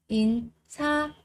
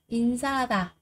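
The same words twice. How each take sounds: First: 인사하다 split as 인-사-하-다 with gaps; syllable by syllable. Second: Said in the usual way. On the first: Shown as a demonstration. Teacher drilling learners on 인사하다, every syllable separated.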